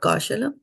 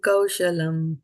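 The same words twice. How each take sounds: First: The first syllable kau gets little emphasis. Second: The first syllable kau gets clear emphasis. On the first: The speaker calls it wrong. "It's not kaushalam" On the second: The speaker calls it right. "a little bit emphasis there"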